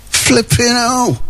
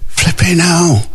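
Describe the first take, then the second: First: Higher, slower mock groan of flipping hell; put-on voice. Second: Said in the usual way. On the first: Host reacting to the heat forecast, higher slow mock voice. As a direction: repeat it in a silly higher voice, dragged out.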